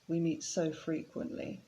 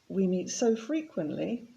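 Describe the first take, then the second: First: The tone of voice sounds negative and weary. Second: The tone of voice sounds positive and pleased. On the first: Meeting often is a bit too much. "then it sounds a bit more negative" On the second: Meeting often is a good thing. "it sounds positive"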